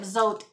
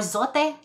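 First: The name is said with an English-style pronunciation. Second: The name is said with a Spanish-style pronunciation.

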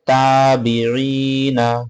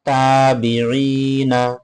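Both takes have the same delivery.

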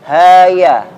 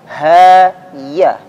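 First: The ya is made with the tongue barely raised. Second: The ya is made with the tongue raised clearly. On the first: The speaker calls it wrong. "bukan ha ya" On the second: The speaker calls it right. "tengah lidahnya terangkat dengan jelas"

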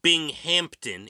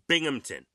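First: A P sound is heard before the T. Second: No P sound is heard before the T. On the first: The speaker calls it wrong. "It's not Binghampton" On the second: The speaker calls it right. "There is no P"

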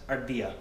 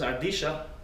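First: The double L sounds like 'y'. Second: The double L sounds like 'sh'. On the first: This is the usual way to say it. "that's ardilla, same word" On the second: This is how it is said in Argentina. "if someone says ardilla"

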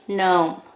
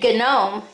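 First: The g at the start is silent. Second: The g at the start is pronounced. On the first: The speaker calls it right. "there are your silent letters. you say gnome" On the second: The speaker calls it wrong. "You don't say gnome"

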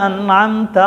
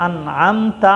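Both takes have the same delivery.

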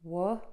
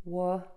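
Both takes have the same delivery.

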